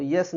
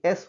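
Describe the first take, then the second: First: S wrongly said "यस", y sound first; "यस" in place of a vowel-first S; mistaken letter S. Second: S said "एस", vowel first; "एस" without any y-glide; correct letter S. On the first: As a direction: put a y-glide on "यस", like yes. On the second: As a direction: begin "एस" on a clean e, no y. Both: Shown as a demonstration. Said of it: "यस नहीं बल्कि एस होगा".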